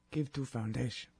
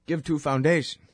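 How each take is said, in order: First: Much softer mock Russian accent; quiet Russian accent. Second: Mock Russian accent, no article before "foundation"; Russian accent with "Give to a foundation" clipped; pretend Russian accent. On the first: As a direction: mutter "Give to a foundation" in Russian accent. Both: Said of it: "They don't have articles".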